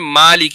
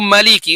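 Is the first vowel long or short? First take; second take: long; short. First: The first vowel is stretched long. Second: The first vowel is short, not stretched. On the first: "हम मा साउंड को जो है स्ट्रेच करते हैं" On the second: "वो उस माँ के साउंड को स्ट्रेच नहीं करेंगे बल्कि बगैर स्ट्रेच के उसको पढ़ेंगे"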